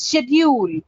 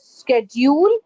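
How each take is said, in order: First: "schedule" starting with SH; correct pronunciation. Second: "schedule" starting with SK; "schedule" with a hard K; the other pronunciation. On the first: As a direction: say "schedule" as SHED-yool, falling. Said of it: "It's schedule". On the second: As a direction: say "schedule" as SKED-yool, rising. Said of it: "Some people call it as". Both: Shown as a demonstration.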